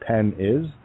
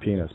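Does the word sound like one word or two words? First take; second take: two words; one word. First: It is split into two separate words. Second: It is said as one ordinary word. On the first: "but it's pen is" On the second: "They pronounce it penis"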